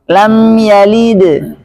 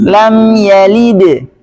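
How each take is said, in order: Both takes have the same delivery.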